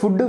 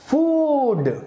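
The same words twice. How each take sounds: First: The vowel is short, like in book. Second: The vowel is long, like in boot. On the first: The speaker calls it wrong. "ఫుడ్ కాదండి" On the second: The speaker calls it right.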